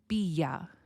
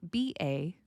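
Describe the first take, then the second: First: A y glide links the two words together. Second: The two words are joined with no y glide. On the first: The speaker calls it right. "add a y sound to make it blend together" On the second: The speaker calls it wrong. "So not be a"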